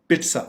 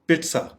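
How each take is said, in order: The two takes are said the same way.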